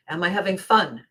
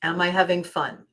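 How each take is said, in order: Both takes have the same delivery.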